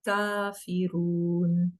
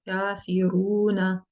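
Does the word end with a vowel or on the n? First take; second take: on n; vowel. First: The word ends on a bare n sound. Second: The word ends with a short na syllable. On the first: The reader stops on this word. "you would put a temporary sukoon on noon fatha" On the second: The reader continues without stopping. "you would just pronounce it as na"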